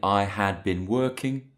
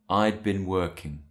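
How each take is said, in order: First: The word had is said in full. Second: The word had is contracted to I'd. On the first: The speaker calls it wrong. "we don't say I had been working" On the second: The speaker calls it right. "we say I'd been working"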